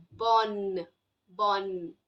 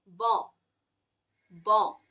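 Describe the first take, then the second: First: "bonne" ending on a clear, held n; isolated low "bonne" with a full final n; sounded double N. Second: "Bon" as a nasal vowel with no n sounded; isolated low "Bon", ending open on the vowel. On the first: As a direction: say "bonne" low, tongue touching up for the n. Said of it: "the tongue in N N E is touching". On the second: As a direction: say "Bon" low, tongue touching nowhere. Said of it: "your tongue doesn't touch anywhere". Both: Shown as a demonstration.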